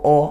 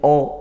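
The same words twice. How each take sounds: First: The vowel is heavy and sounds like o. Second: The same.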